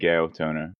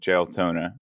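First: The name starts with a hard G sound. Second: The name starts with a J sound. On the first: "even though it might be Gaotona" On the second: "I'm going to pronounce it with a J"

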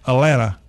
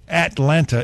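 First: The middle T sound is dropped. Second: The middle T sound is clearly pronounced. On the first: This is how true locals say the city name. The speaker calls it right. "It's like it doesn't have a T in there" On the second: This is how outsiders say the city name. The speaker calls it wrong. "not at with a T"

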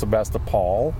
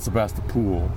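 First: The last syllable is a short 'pol'. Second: The last syllable sounds like 'pool'. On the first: The speaker calls it right. "there's also no pool in Sebastopol. It's Sebastopol" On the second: The speaker calls it wrong. "It's not Sebastopol"

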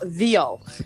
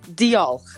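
First: The word begins with a soft th sound. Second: The word begins with a plain d sound. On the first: The speaker calls it wrong. "not Diolch" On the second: The speaker calls it right. "It is a single D. Just like I'm saying it"

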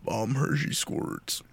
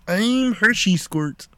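First: It is said in a raspy, rough voice. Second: It is said in a Kermit the Frog voice.

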